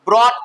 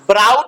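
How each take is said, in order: First: The vowel sounds like 'aw' in 'caught'. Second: The vowel sounds like 'ow' in 'out'. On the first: The speaker calls it right. "ब्रॉट पढ़ना" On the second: The speaker calls it wrong. "ब्राउट नहीं पढ़ना"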